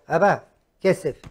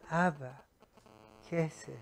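First: It is said in a rude, demanding tone. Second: It is said in a soft, pleading tone.

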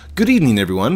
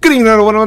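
First: It is said at a normal, calm pace. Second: It is said very fast, rushed.

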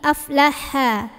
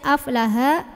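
First: The h sound is breathy with air pushed out. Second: The h sound is weak with little air. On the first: The speaker calls it right. "tapi aflaha. Dorong ya dari tengah tenggorokan, anginnya keluarin" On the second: The speaker calls it wrong. "jangan dibaca aflaha"

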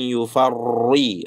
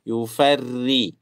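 First: The r sound is heavy and thick. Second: The r sound is light and thin. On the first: The speaker calls it wrong. "bukan yufarri" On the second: The speaker calls it right. "ri tipis"

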